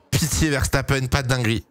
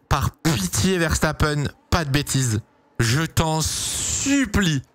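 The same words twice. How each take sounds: First: Said in the usual way. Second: Slow pleading. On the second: Real, not acted. Streamer begs driver before start.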